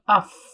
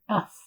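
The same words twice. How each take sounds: First: The final f has a strong, pushed breath release. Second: The final f has a light, gentle breath release. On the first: The speaker calls it wrong. "not af. We don't want a continuation or pressure of the breath" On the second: The speaker calls it right. "not too much"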